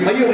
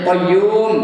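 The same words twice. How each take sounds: First: The last vowel is short and clipped. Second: The last vowel is held for two counts. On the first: The speaker calls it wrong. "Qayyum aja tak betul" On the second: The speaker calls it right. "Mesti qayyum penkoman dua akad"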